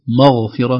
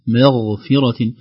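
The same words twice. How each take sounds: First: Both the m and the gh are heavy. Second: The m is light and the gh heavy. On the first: The speaker calls it wrong. "نفخم كلا الحرفين" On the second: The speaker calls it right. "نخلص ترقيق الميم من تفخيم الغين"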